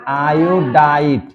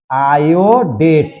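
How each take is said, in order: First: iodite drawn out slowly, the long आइ clear; slow teaching answer. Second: iodate drawn out slowly, each syllable clear; slow teaching answer. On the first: Teacher contrasting the two names for students, slow and clear. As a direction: lay out iodite syllable by syllable. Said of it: "और इसको क्या पढ़ेंगे?". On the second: Teacher modelling a chemical name for students, slow and clear. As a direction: spell out iodate slowly for the class. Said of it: "तब क्या पढ़ेंगे इसको?". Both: Shown as a demonstration.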